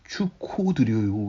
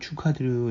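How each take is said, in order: First: The second syllable is pronounced 'ho'. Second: The second syllable is pronounced 'ha'. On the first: The speaker calls it wrong. "실수로 ... 이렇게 말을 잘못했다고 쳐봐요" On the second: The speaker calls it right. "이렇게 제가 말했는데"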